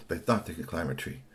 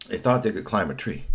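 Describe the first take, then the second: First: Lower, softer narration; hushed repeat. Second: Said in the usual way. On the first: A narrator's reading. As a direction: drop the voice as if pondering a plan. Repeats the line much softer.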